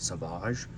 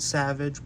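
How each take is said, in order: First: The name is said the way the show says it. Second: The name is said just as it is spelled. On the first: This is how the show says the name. "in the show they pronounce it Savage" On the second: This is how the name is written. "It's spelled Savage"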